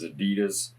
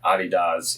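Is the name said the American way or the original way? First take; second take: American; original. First: The name is said the American way. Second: The name is said the original way. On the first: The speaker calls it wrong. "the U S pronunciation is" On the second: The speaker calls it right. "is the real pronunciation"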